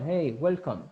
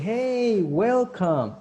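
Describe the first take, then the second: First: It is said flatly without feeling. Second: It is said warmly with lively feeling. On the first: The speaker calls it wrong. "It's not" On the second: The speaker calls it right. "with feeling, with gestures"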